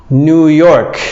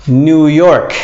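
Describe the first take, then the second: The two takes are said the same way.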